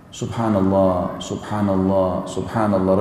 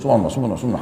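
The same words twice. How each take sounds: First: It is said calmly and slowly. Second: It is said fast and mumbled.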